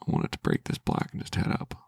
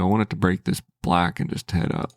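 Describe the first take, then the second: First: Whispered, much lower and softer; whispered wish. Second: Said in the usual way. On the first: Real, not acted. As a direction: breathe the wish like a silent prayer. Repeats the wish under breath.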